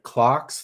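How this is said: The vowel sounds like the one in 'car'. This is the Australian or English way. "if it was an Australian or English movie, I would be calling it Clarks three because that's the correct way to pronounce it"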